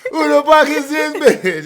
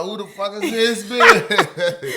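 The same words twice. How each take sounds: First: Higher, louder, half-laughing repeat; laughing louder disbelief. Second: Laughing disbelief. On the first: Storyteller laughing in disbelief at the girl, louder and higher. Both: Retold or imitated. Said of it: "I'm in the driver's side like".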